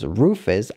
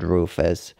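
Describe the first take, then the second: First: An easy, friendly Rufus; pleased name-calling. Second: Rufus dropped lower and softer, stern; displeased name-calling. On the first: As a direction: say Rufus the friendly way, no edge at all. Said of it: "I know is good". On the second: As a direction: let Rufus sink low and quiet like a warning. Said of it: "But this is not good". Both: Retold or imitated.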